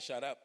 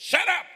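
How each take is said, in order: First: Said in the usual way. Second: Sudden high, very loud shout; shouted rebuke. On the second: Retold or imitated. Father silencing his complaining daughter in hospital, shouted rebuke. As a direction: cut them off with a re-enacted yell.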